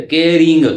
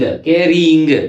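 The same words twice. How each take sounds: First: Said in the usual way. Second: के रिंग said slowly as one word; slow joined word. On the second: Shown as a demonstration. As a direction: blend री and इंग into रिंग, slowly. (धीरे से जोड़कर के रिंग) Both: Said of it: "री और ये इंग".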